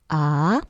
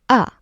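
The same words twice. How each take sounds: First: The pitch rises toward the end. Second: The pitch drops sharply and briefly. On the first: "The second tone goes up a little bit" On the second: "the last one is the drop. Short, angry"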